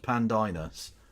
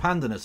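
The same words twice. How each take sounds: First: The name copies the robot voice's pronunciation. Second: The name is said in its usual pronunciation. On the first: This is the new way of saying the name. "it's Pandinus. You heard the you heard the robot voice" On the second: This is the old way of saying the name. "It's not Pandinus anymore"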